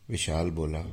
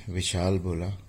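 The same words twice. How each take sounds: The two takes are said the same way.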